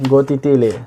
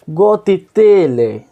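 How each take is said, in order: First: Said in the usual way. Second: गोतीतीले stretched slowly, pitched high and louder; गोतीतीले said high, loud and long to mock the name; drawn-out high mock. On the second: Shown as a demonstration. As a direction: sing out गोतीतीले high and slow, savouring the odd name. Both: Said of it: "देख रहे हो नाम कैसा है?".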